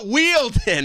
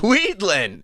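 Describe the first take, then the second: First: The name ends with a 'den' sound. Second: The name ends with a 'lin' sound. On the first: The speaker calls it wrong. "It's not Wielden" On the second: The speaker calls it right. "it's Weedlin"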